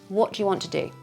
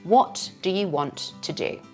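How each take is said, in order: First: It is said with the words linked smoothly. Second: It is said slowly with a clear beat.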